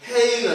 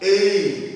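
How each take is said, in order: First: The word starts with an audible h sound. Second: The word starts directly with a vowel sound. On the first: The speaker calls it wrong. "చాలా మంది ఇక్కడ చూస్తే హెయిన్ అంటారు. కాదు" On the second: The speaker calls it right. "Silent H silent"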